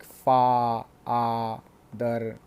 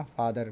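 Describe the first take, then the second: First: फादर stretched into two slow beats, फा and दर; syllable by syllable. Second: Said in the usual way. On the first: Shown as a demonstration. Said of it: "डाइसिलेबिक यानी दो, दो से बनते हैं". (फादर को दो हिस्सों में तोड़कर, धीरे-धीरे) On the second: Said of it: "अलग, है ना?".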